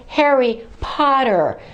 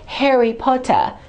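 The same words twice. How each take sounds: First: Every R is clearly pronounced. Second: The final R is dropped. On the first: The speaker calls it right. "Make sure you pronounce all the R's" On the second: The speaker calls it wrong. "don't say Harry Potter"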